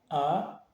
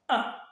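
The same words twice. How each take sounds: First: The pitch rises briefly. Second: The pitch falls sharply and briefly. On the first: "il est ascendant. Il monte, mais il est bref" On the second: "il est grave et bref"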